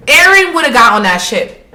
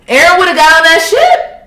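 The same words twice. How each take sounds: First: Said in the usual way. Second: Laughing repeat. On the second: Real, not acted.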